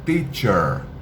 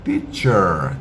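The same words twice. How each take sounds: First: The first sound is a clean, crisp t. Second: The first sound is a clean, crisp t.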